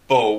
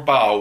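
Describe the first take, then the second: First: The vowel is a long O, rhyming with 'go'. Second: The vowel is an OW diphthong, rhyming with 'cow'. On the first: "with a long O" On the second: "with a diphthong O-W"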